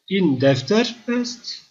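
It is said with emphasis, rising like a question. Is this a notebook? "soru olarak sormak istiyorsanız in defter est vurgulayarak"

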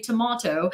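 It is said in a British accent. "I'm a Brit, we say tomato"

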